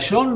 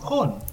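First: The name is said with English sounds. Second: The name is said with Spanish sounds.

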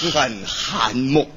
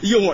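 First: The first syllable is pronounced han. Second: The first syllable is pronounced you. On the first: The speaker calls it wrong. "那次念幽啊，怎么会寒呢？" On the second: The speaker calls it right. "幽，对"

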